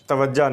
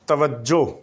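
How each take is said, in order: First: The word ends in an 'a' sound. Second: The word ends in an 'o' sound. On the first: The speaker calls it wrong. "तवज्जा नहीं" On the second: The speaker calls it right. "दुरुस्त लफ्ज़ उसका तलफ़ुज़ तवज्जो"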